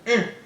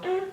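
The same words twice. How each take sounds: First: The hum sounds short and angry. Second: The hum sounds whiny and complaining.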